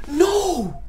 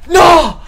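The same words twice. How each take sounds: First: Said in the usual way. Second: High, loud cry of despair; despairing shout. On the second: Real, not acted. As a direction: yell no in dismay. Game crashing.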